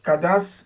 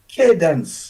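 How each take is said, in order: First: The name has a French or Creole pronunciation. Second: The name has an English pronunciation. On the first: "we decided to pronounce it in French or in Creole" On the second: "if we were to pronounce it in English"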